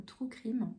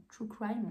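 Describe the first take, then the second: First: "true crime" with a French "krim", slow; "true crime" read the French way, drawn out; French pronunciation. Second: "true crime" with an English "craïm" diphthong; "crime" said as English "kraym", French-accented; English pronunciation. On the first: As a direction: say "crime" to rhyme with French "prime". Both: Shown as a demonstration. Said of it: "je sais pas comment vous voulez dire ça".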